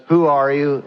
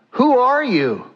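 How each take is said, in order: First: Said in the usual way. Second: High, startled question falling at the end; startled father. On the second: Acted. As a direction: ask it high, taken aback. Startled father questions his son.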